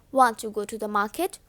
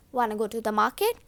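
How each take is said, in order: First: Said in the usual way. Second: "Wanna" run together, quicker; reduced wanna. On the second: Shown as a demonstration. Teacher showing students connected speech, reduced wanna. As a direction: link want and to into a quick "Wanna". Demonstrates the linked wanna form.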